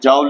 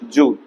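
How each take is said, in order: First: The vowel sounds like 'ow' in 'owl'. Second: The vowel sounds like 'oo' in 'pool'. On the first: The speaker calls it wrong. "वो जाउल नहीं है" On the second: The speaker calls it right. "It is जूल"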